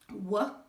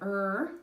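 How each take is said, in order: First: The sound comes out as a W. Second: The sound comes out as a clear R. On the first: The speaker calls it wrong. "if I say W and I'm supposed to be saying er" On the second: The speaker calls it right. "And if I am saying er"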